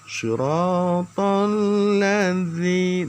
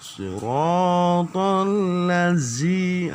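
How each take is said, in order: First: The consonant in ladzi sounds like a th. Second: The consonant in ladzi sounds like a z. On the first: The speaker calls it right. "ujung lidah dia" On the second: The speaker calls it wrong. "itu sudah masuk ke z"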